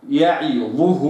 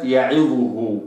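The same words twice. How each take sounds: First: يعظه with the kasra kept full; correct reading. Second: يعظه with the kasra clipped; يعظه the wrong way; wrong reading. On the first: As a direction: read يعظه right. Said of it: "هكذا". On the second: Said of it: "وليست يعظه". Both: Shown as a demonstration.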